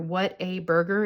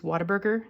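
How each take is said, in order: First: The name is said slowly, word by word. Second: The name is said quickly, run together. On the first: "if you say it slowly" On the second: "is how we say it here"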